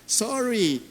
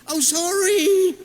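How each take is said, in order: First: Said in the usual way. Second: High, loud, slow drawn-out "sorry"; sarcastic apology; exaggerated sorry. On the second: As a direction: stretch the "sorry" mockingly. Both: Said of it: "O, ganun, di ba?".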